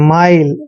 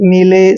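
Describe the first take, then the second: First: The vowel is an 'eye' sound. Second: The vowel is a long 'ee' sound. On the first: The speaker calls it right. "I L E को आइल पढ़ते हैं" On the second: The speaker calls it wrong. "ऐसे नहीं पढ़ना है"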